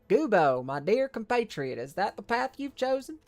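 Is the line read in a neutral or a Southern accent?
Southern. It is read in a Southern accent.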